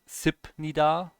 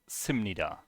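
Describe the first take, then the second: First: A p sound comes before nida. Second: An m sound comes before nida. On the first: The speaker calls it wrong. "it's not Sipnida" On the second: The speaker calls it right. "it's Simnida"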